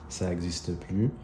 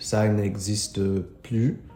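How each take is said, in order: First: The word 'ne' is left out before 'existe'. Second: The word 'ne' is said before 'existe'. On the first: This is casual conversational French. "In conversational French, we usually take the ne out" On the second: This is the full standard form. "so it's supposed to be ne plus"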